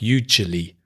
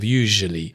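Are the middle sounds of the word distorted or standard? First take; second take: distorted; standard. First: The middle sounds of the word are distorted. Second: The middle sounds of the word are standard. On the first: The speaker calls it wrong. "some problems with some phonemes, some individual sounds like usually" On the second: The speaker calls it right. "instead of usually"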